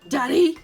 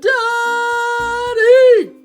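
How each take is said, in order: First: It is said a little louder. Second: It is yelled as loud as possible.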